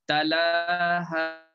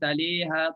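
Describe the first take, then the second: First: The middle vowel is an open 'a' sound. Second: The middle vowel is tilted toward an 'i' sound. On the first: The speaker calls it right. "dibaca dengan fathah" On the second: The speaker calls it wrong. "Tak dibaca taliha"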